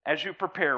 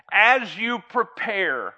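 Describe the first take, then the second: First: Said in the usual way. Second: As drawn out slowly with a falling tune; slow emphatic. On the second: Shown as a demonstration. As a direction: stress As, slow and loud.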